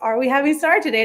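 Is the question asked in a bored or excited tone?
excited. It is asked in an eager, excited tone.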